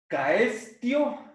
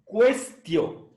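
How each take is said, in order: First: The first syllable has no 'w' sound. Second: The first syllable has a 'w' sound. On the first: The speaker calls it wrong. "No se olviden de pronunciar la U. ... no vamos a leer caestio" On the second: The speaker calls it right. "sino cuestio"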